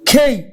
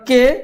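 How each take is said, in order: First: The k is aspirated and the vowel glides. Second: The k is plain and the vowel short. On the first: The speaker calls it right. "It will be খেই" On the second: The speaker calls it wrong. "It is not কে"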